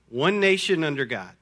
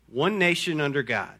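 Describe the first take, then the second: The two takes are said the same way.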